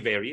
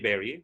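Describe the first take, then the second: First: The word begins with a buzzing V sound. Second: The word begins with a B sound. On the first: The speaker calls it right. "It should be very, very" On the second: The speaker calls it wrong. "not very, very. Very, very is a sickness"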